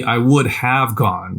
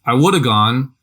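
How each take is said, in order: First: Would have said out in full, slow and deliberate; slow textbook would have; full careful form. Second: Woulda run together, have shrunk to a quick uh; I woulda gone, slurred the natural way; reduced casual form. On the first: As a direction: spell out would have word by word. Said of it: "is literally". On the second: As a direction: say woulda the lazy everyday way. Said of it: "is literally, "I would have gone". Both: Shown as a demonstration.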